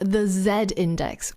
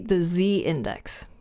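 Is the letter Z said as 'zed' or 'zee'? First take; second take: zed; zee. First: Z is said 'zed', British style. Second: Z is said 'zee', American style.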